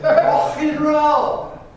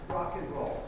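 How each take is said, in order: First: It is said in an exaggerated British accent. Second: It is said in a plain American accent. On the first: The speaker calls it right. "If [name] and [name] had a baby" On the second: The speaker calls it wrong. "It's not pronounced rock and roll"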